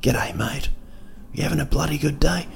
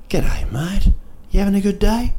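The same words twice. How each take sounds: First: Small, soft voice with rising questions; murmured greeting, like someone perched on your shoulder; little conscience voice. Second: High, rising cheery greeting; friendly shopkeeper. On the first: Little person on your shoulder, soft conscience voice. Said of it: "your little conscience is speaking like". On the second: Someone in a New Zealand shop, imitated friendly greeting. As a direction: imitate a chirpy local, pitched right up. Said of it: "and someone will go". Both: Retold or imitated.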